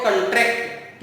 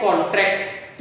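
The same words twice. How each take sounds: First: कंट्रैक्ट said as kon-TRACT, stress on the second syllable. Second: कॉन्ट्रैक्ट said as KON-tract, stress on the first syllable. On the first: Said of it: "लेकिन जब हम इसको पढ़ते हैं कंट्रैक्ट". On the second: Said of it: "जब हम इसको पढ़ते हैं कॉन्ट्रैक्ट". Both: Shown as a demonstration.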